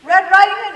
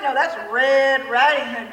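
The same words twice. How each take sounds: First: Said in the usual way. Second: "Riding" drawn out slowly and loud; slow, loud correction leaning on "Riding"; correcting, stress on Riding. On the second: Shown as a demonstration. Correcting a trick-or-treater's costume name, leaning hard on "Riding".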